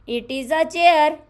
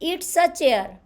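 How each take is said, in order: First: 'It is' is said as two full words. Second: 'It is' is shortened to one syllable 'it's'.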